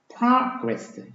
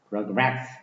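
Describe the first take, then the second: First: The stress is on the first syllable. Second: The stress is on the second syllable. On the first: It is used as a noun. "명사의 경우에는 앞에 강세가 있죠" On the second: It is used as a verb. "동사가 되면은 뒤에 강세가 있죠"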